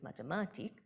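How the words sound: The word is said with Austrian German stress. "Hanover German and Austrian German differ"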